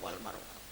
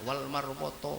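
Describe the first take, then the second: First: It is said with a standard Arabic pronunciation. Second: It is said with a Javanese Solo-style pronunciation. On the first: The speaker calls it right. "nggak boleh, tetap wal marwata" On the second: The speaker calls it wrong. "Walaupun Jokowi berangkat haji karena dari orang Solo, jangan dirubah"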